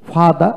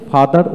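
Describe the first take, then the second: First: ফাদা with no r at the end; non-rhotic ফাদা; r dropped. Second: ফাদার with the final r pronounced; final r sounded. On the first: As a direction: end ফাদা on an open "aa", r silent. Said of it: "ফাদা উচ্চারণটা আমাদের দেশে প্রচলন নেই". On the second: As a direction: say ফাদার ending on an audible r. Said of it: "ফাদার উচ্চারণ হয় বেশি". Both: Shown as a demonstration.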